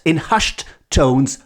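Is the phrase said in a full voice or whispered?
full voice. The phrase is said in a full, dramatic voice. "but in a dramatic voice"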